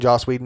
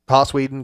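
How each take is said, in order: First: The first name begins with a J sound. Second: The first name begins with an H sound.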